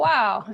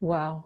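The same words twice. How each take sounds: First: It is said with excited, exclaiming energy. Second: It is said flatly, without excitement.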